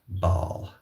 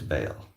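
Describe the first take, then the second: First: The name rhymes with 'ball'. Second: The name rhymes with 'bale'.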